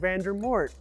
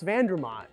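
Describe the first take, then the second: First: The name ends with a 'mort' sound. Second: The name ends with a 'mont' sound. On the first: The speaker calls it wrong. "I was saying Vandermort" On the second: The speaker calls it right. "I've mispronounced Vandermont"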